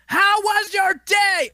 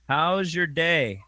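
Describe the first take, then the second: First: It is said loudly, almost yelling. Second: It is said at a normal volume.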